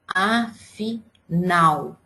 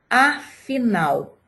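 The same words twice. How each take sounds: First: Afinal very slowly, a... fi... NAL; stress on NAL. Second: Said in the usual way. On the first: Shown as a demonstration. Teacher asking which syllable is strongest, stress on NAL. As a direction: split afinal into syllables, weight on the final NAL. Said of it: "que eu pronunciei com mais força". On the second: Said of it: "última palavra".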